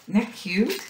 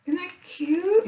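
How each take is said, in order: First: Said in the usual way. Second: Much higher excited repeat of the line; high delighted squeal. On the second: Real, not acted. Crafter squealing to viewers over a little mark maker, high delighted squeal. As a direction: squeal it the second time round.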